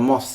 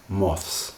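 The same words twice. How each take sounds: First: The final cluster is rushed and nearly sounds like moss. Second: The final consonant cluster is clearly articulated. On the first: "It's very quick" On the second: "I'm pronouncing it very carefully there"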